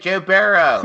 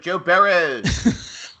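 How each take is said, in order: First: The name ends without an added s sound. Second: The name ends with an added s sound. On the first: "in your just normal normal voice" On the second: "in Philadelphia, we would add an S"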